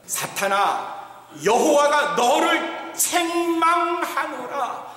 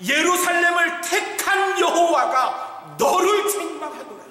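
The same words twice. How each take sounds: First: Slow, chanted, higher divine rebuke; chanted, intone the words like scripture; God's rebuke half-sung, very slow; solemn chanted rebuke. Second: Higher, louder declaration of the rebuke; God thundering the rebuke at Satan; proclaimed rebuke. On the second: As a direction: proclaim it over the crowd. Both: Retold or imitated. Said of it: "뭐라고 말씀하셨어요?".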